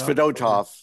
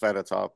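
First: The stress is on the middle syllable. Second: The stress is not on the middle syllable. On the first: The speaker calls it right. "It's always the middle syllable" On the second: The speaker calls it wrong. "We thought it was Fedotov, but we were all wrong"

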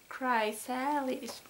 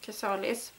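First: The word is pronounced with English sounds. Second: The word is pronounced with Swedish sounds. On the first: "That was so off" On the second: "Now I want to pronounce this in Swedish"

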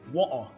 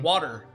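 First: It is said in a British accent. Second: It is said in an American accent.

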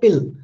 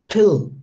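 First: The p is said without a puff of air. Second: The p is said with a puff of air. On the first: The speaker calls it wrong. "Native speaker will not say pill" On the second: The speaker calls it right. "like a native speaker will always say pill"

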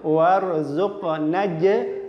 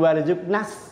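First: It ends in a non-hissing j sound. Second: It ends in a hissing s sound. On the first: The speaker calls it right. "Nek disambung warzuqnaj tinabah" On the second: The speaker calls it wrong. "Mboten warzuqnas ... dadi berdesis"

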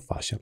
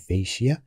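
First: It is pronounced like 'fasha'. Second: It is pronounced like 'fishya'. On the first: The speaker calls it right. "النطق الصحيح لها هو فاشا" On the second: The speaker calls it wrong. "بعض الناس يسميها فيشيا"

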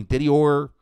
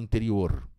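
First: The r is said the countryside São Paulo way. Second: The r is said the São Paulo city way. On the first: "do interior de São Paulo" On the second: "o da capital não fala interior, ele fala interior"

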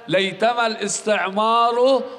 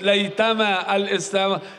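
First: The second word ends with a short 'u' vowel. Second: The second word ends with a short 'a' vowel. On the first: The particle loses its grammatical effect on the noun. "بالضم" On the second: The particle keeps its grammatical effect on the noun. "على الراء فتحة"

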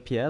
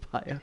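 First: The name is said the French way. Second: The name is said to rhyme with fire. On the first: "Pierre like French" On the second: "Pierre like a freaking fire"

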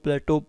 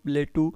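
First: The word ends with an 'oh' vowel. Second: The word ends with an 'oo' vowel. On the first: "प्लेटो इसको बोला जाता है" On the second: "प्लेटू बोल सकते हो इसको"

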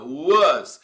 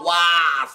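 First: The vowel is said closed. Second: The vowel is said open. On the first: The speaker calls it right. "É um A fechado" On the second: The speaker calls it wrong. "Não vai falar was, não"

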